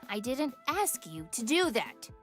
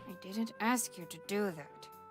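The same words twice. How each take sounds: First: It is said more clearly, less mumbled. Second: It is mumbled and hard to make out.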